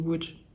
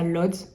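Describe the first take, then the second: First: The name sounds like 'wootch', the Polish way. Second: The name is read as spelled, like 'lodz'. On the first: The speaker calls it right. "mais en fait ça se dit Łódź" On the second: The speaker calls it wrong. "vous allez sûrement lire ça Lodz"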